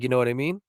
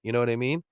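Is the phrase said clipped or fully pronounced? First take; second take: full; full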